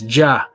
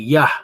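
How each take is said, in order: First: The name starts with a 'j' sound. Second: The name starts with a 'y' sound. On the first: The speaker calls it wrong. "Here it says Jah" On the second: The speaker calls it right. "there's no J in the Hebrew, so that would be Yah"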